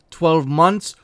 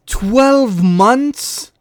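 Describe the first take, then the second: First: Said in the usual way. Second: Loud, high disbelieving question; can't believe what you just read; incredulous. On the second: Real, not acted. Repeats the ban in disbelief.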